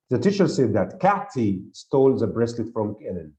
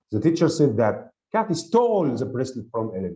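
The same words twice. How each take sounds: First: "Kathy" picked out as the stressed word; emphasis on Kathy. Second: "stole" stretched and stressed above the other words; emphasis on stole. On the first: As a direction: stress the name "Kathy" to show who did it. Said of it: "is on the name". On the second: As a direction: hit the action word "stole" hard. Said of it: "the other one is on the action". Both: Shown as a demonstration.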